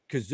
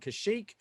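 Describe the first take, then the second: First: The name is said as 'Kazook', with 'z'. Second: The name is said as 'Kashyyyk', with 'sh'. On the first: This is how the characters in the show say it. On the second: This is the usual way fans say it.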